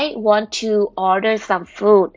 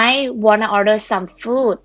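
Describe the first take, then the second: First: 'Want to' is said as two full words. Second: 'Want to' is reduced to 'wanna'.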